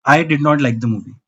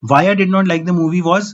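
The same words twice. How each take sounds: First: Slow, low, every word spaced out; firm verdict. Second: Said in the usual way. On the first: Real, not acted. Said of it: "मेरा review है टू stars". (धीमे, ठहरकर फैसला सुनाते हुए)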